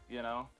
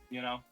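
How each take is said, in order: Both takes have the same delivery.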